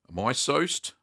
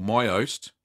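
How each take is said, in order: First: "my soast" with an s starting "soast"; attempted correct pronunciation. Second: "my oast" with no s sound before "oast"; alternative pronunciation. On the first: Cheesemaker settling on the cheese's name for viewers, attempted correct pronunciation. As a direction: say "my soast", sounding the s, rhyming with toast. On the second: Cheesemaker trying out the cheese's name for viewers, alternative pronunciation. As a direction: say "my oast", second word opening on the vowel. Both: Shown as a demonstration. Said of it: "I think that's how you pronounce it".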